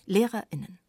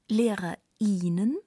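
First: The I is cut off by a brief break. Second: The I sound is drawn out long. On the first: The speaker calls it right. "Einfach klar getrennt vom Rest" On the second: The speaker calls it wrong. "Nicht das I langziehen"

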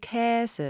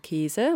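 First: The first vowel is an open ä sound. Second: The first vowel is a closed e sound. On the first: This is the form the pronunciation dictionary gives. "Käse mit Ä" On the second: This is how many media speakers actually say it. "Die meisten oder viele Mediensprecher sagen"

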